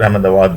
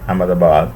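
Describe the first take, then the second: First: The name has its local Gujarati pronunciation. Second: The name has its common, non-Gujarati pronunciation.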